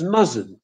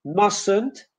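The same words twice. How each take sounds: First: MUSTN'T with z, MUZ-unt; Polish-style Z error. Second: MUSTN'T with s, MUSS-unt; English S in MUSTN'T. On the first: Teacher showing how it is mispronounced, wrong z sound. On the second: Teacher modelling English for Polish learners, correct s sound. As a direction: say MUSTN'T with a hissing s. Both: Shown as a demonstration. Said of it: "is mispronounced as mustn't".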